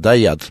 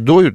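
First: The word ends with a 'yat' sound. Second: The word ends with a 'yut' sound. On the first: This form is used to make the rhyme work. "ну ладно, доят, в рифму" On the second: This is the form used in general. "Вообще доют"

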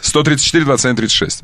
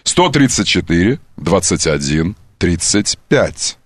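First: The numbers are said at a normal pace. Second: The numbers are said slowly and deliberately.

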